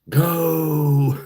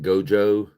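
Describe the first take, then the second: First: The J sound is left out entirely. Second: The J sound is clearly pronounced.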